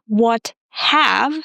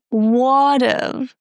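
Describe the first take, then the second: First: Have is said in full with an H. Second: Have is reduced to a schwa and V. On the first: The speaker calls it wrong. "not what have" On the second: The speaker calls it right. "but what of"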